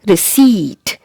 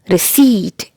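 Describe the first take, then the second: Both takes have the same delivery.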